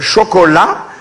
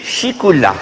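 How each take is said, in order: First: It is said as standard French chocolat. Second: It is said with i and ou vowels: chicoula. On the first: This is how the rest of the world says it. "dans le monde entier on dit euh, chocolat" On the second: This is how people back home say it. "chez nous on dit chicoula"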